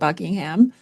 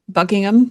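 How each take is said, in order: First: The name is said in a casual everyday way. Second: The name is said in a careful formal way.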